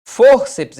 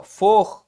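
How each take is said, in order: First: Said in the usual way. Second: "Fórceps" split as "Fór", pause, "ceps"; syllables separated. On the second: Shown as a demonstration. Teacher showing how "Fórceps" divides, syllable by syllable. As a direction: break "Fórceps" into two detached syllables. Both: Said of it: "é assim separado".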